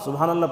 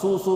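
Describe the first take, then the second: First: Every syllable of the phrase is said fully. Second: Only the first syllable is said, cut short. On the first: The speaker calls it right. "पूरा बोलना" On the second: The speaker calls it wrong. "सू सू बोले तो नहीं होता वो"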